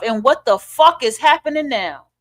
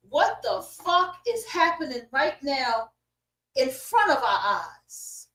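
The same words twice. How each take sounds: First: Said in the usual way. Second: Slow and much softer; hushed disbelief. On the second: Real, not acted. Asking viewers what they see happening, hushed disbelief. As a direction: drop the volume and draw each word out.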